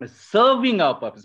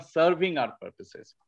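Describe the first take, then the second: First: Serving hit high and loud, falling off; serving pushed hard and falling; stress on serving. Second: Said in the usual way. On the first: Shown as a demonstration. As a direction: punch the word serving, then drop. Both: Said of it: "I'm emphasizing the word serving".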